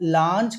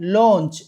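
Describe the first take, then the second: First: The vowel is an open 'ah' sound. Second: The vowel is a rounded 'aw' sound. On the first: The speaker calls it wrong. "లాంచ్ కాదండి" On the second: The speaker calls it right. "యాక్చువల్గా ఓ పలకాలి"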